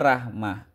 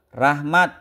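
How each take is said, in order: First: The word ends with an h sound. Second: The word ends with a t sound. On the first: The form follows the Arabic ending. "harusnya rahmah" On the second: The form was borrowed through Persian. "dibacanya te"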